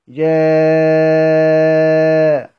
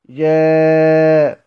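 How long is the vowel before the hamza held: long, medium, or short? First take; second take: long; medium. First: The vowel before the hamza is held very long. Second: The vowel before the hamza is held moderately. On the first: "والمد" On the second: "والتوسط"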